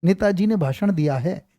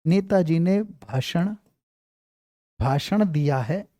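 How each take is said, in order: First: Said in the usual way. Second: Slow, drawn-out words with long pauses; slow dictation. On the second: Shown as a demonstration. Teacher dictating to students so they can write it, slowly. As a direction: spell out Netaji ने भाषण for writing, very slowly. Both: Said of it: "कई बार आएगा".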